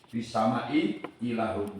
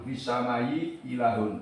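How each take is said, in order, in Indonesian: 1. Kedua hamzah diucapkan dengan jelas. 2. Hamzah pertama dilunakkan menjadi y. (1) "dengan menjelaskan dua hamzah" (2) "membaca tasil al-ula"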